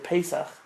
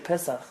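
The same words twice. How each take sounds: First: It is said with an Ashkenazi pronunciation. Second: It is said with a non-Ashkenazi pronunciation. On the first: "they say Pesach" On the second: "they don't say Pesach"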